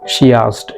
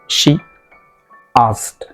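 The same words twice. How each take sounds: First: Said fluently, with a y sound linking words. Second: Said slowly, with no y sound between words. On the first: "if you become more fluent... you mix she into asked... this sound is created" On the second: "If you speak these two words very slowly, then yeah, this sound won't be there"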